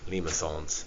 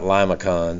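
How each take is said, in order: First: The word is pronounced in a fancy way. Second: The word is pronounced in a plain way. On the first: The speaker calls it right. "You gotta pronounce it all fancy" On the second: The speaker calls it wrong. "remember that's not limacons"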